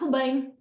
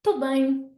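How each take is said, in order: First: The opening syllable es is dropped. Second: The opening syllable es is dropped.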